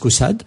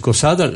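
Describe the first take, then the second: First: It is said with a Parisian French pronunciation. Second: It is said with a southern French pronunciation. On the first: This is how people from Paris say it. "les Parisiens disent Caussade" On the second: This is how people from the south say it. "les méridionaux disent Caussade"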